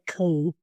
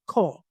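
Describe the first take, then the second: First: The word ends with an L sound. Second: The word ends on a plain vowel. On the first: The speaker calls it wrong. "It looks like coal" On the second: The speaker calls it right. "but it's ko"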